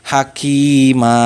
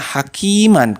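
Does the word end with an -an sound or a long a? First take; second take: long a; an. First: The word ends on a long a vowel. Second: The word ends with a final n sound. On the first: The speaker calls it right. "tetapi dibaca hakima" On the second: The speaker calls it wrong. "jangan dibaca hakiman ketika kalau kita diwakafkan"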